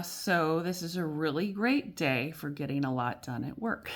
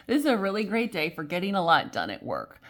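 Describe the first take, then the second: First: Said in the usual way. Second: Brighter, louder, determinedly upbeat; cheerful reassurance to the viewer; forced positivity. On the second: Shown as a demonstration. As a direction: sell it as good news on purpose. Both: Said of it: "We'll stay positive".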